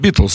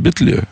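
First: The name ends with a z sound. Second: The name ends with an open vowel. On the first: This is how Russian speakers say the name. "они не говорят Битлз" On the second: This is how French speakers say the name. "они говорят Битле"

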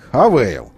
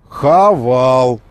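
First: The second vowel is an ay sound. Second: The second vowel is a plain a sound. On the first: "Они хотят Хавейл" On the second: "Хавал написано"

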